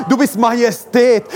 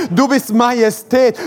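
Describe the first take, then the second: No difference in how they are said.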